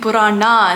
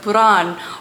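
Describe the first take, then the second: First: The word ends with an a vowel. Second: The word ends without a final vowel. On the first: This follows the speaker's Tamil habit. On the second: This is how others expect it said.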